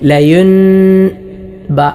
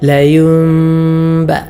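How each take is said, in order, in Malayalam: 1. b ക്ക് മുൻപ് സാധാരണ n ശബ്ദം തന്നെ നിലനിൽക്കുന്നു. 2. b ക്ക് മുൻപ് n മാറി നാസികാ m ആകുന്നു. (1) "ചിലരൊക്കെ ഓതുന്നതുപോലെ ... ഇങ്ങനെയല്ല" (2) "ഇങ്ങനെയാണ് ഓതേണ്ടത്"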